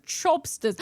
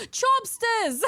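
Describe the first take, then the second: First: Said in the usual way. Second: High gasped delight; excited gasp. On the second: Real, not acted. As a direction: gasp the name, thrilled, high. Gasping at the name.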